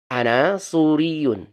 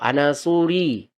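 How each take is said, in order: First: The last word has its full ending. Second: The last word drops its final ending.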